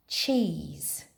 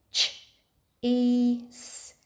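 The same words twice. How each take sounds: First: Said in the usual way. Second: "Ch-E-S" one sound at a time. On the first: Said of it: "How many sound buttons in cheese?". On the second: Shown as a demonstration. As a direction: separate "ch", a long "ee" and the final hiss. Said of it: "You do it with your fingers".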